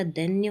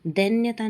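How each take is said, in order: First: दैन्य ending on nya; correct form. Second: दैन्यता with added taa; wrong form. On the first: Teacher correcting the word, दैन्य ending in nya. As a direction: stop दैन्य without taa. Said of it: "होता है". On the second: Teacher showing the error, दैन्यता with extra taa. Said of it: "नहीं होता". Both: Shown as a demonstration.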